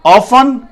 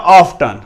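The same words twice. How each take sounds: First: Often with silent t, "OFF-un"; British pronunciation. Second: Often with the t sounded, "OFF-tun"; American pronunciation. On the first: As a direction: say often as "off-fun". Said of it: "often पढ़ा जाता है". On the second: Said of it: "American इसे often ही पढ़ते हैं". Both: Shown as a demonstration.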